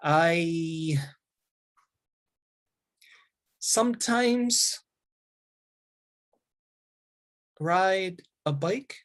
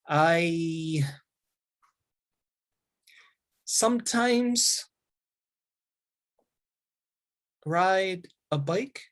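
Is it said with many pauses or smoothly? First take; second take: many pauses; many pauses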